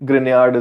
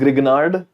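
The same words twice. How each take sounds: First: The name is pronounced in the French way. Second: The name is pronounced in an anglicized way. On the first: The speaker calls it right. "it's a French name, so Grignard is a better pronunciation" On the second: The speaker calls it wrong. "You call this Grignard"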